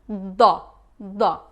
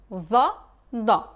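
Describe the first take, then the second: Both takes have the same delivery.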